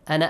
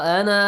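First: The final vowel is cut short. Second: The final vowel is drawn out long. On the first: The reciter continues into the next word. "if you join this word with the other word, ignore the alif" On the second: The reciter stops on this word. "You pronounce it. Look. this way"

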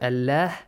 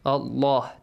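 First: The L sound is light and thin. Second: The L sound is heavy and deep. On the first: The speaker calls it wrong. "This way, not Allah" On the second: The speaker calls it right. "Allah is pronounced heavily"

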